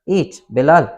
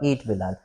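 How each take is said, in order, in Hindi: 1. दोनों शब्दों के बीच एक छोटा विराम होता है। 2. दोनों शब्द बिना रुके एक साथ बोले जाते हैं। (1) "एक छोटा सा कॉमा लगा दें इनके बीच में" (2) "यहाँ पे कोई पंक्चुएशन मैंने बीच में नहीं लगाया हुआ"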